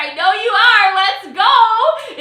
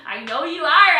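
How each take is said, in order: First: Louder, higher hype call; hyped-up repeat. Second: Said in the usual way. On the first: Real, not acted. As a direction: fire the crowd up. Hyping the audience for ranks.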